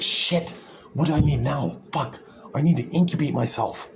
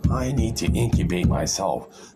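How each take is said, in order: First: Panicked Super Egg. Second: The same line again, slower and calmer; slowed, settled restatement; slow deliberate repeat. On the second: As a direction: draw it out after the outburst. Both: Retold or imitated. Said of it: "Super Egg's like".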